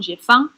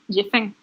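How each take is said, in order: First: The vowel in 'faim' sounds like 'ang'. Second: The vowel in 'faim' sounds like 'eng'. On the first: "kalau orang di Lyon atau di Paris ngomong Jefang" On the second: "di Marseille Jefeng"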